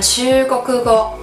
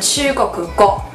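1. 音调先升，然后保持平稳。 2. 音调先升后降。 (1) "它会变成平板型的" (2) "不会念成chugoku go"

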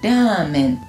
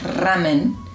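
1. La r es suave, un toque ligero. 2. La r es fuerte y vibrante. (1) "Es como la R suave del español" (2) "Un fideo con sopa no es ramen"

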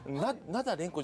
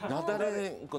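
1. 名前は'nada'の後で区切る。'renko'が残る。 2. 名前は'nadare'の後で区切る。'nko'が残る。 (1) "ナダレンコじゃないんですよ。レンコじゃないって言った" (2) "ナダレンコなんですよ。"

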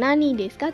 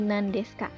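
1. Kata pertama punya dua suku kata, nani. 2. Kata pertama disingkat menjadi satu suku kata, nan. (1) "jadi bukan nani desu ka" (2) "tetapi nan desu ka"

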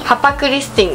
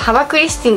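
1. 2番目の子音は無声の 'p' だよ。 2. 2番目の子音は有声の 'b' だよ。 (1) "ハパクリスティンですって" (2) "読み方ハバクリスティンじゃないんだよね"

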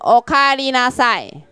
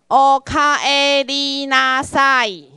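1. 这个短语说得快一些。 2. 这个短语说得慢一些。

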